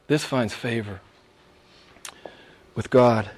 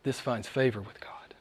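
First: Said in the usual way. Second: A soft whisper, almost secret; preacher whispering the line before repeating it. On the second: Acted. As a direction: breathe it like a secret to the flock. Whispered, then repeated aloud.

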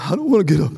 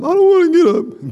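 First: Said in the usual way. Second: Put-on whiny child. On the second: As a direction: whine it like a tired kid. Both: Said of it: "son refusing to get up".

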